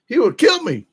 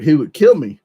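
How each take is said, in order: First: High-pitched disbelief, hammed up; exaggerated high incredulous exclamation. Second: Said in the usual way. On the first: Real, not acted. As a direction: repeat it in amazement, pitch leaping way up. Repeats threat in disbelief.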